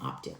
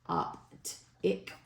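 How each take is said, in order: First: The word is run together as in normal conversation. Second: Each syllable and vowel is said separately and distinctly. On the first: "as if you were talking to someone" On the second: "pronouncing both vowels distinctly using a spelling pronunciation"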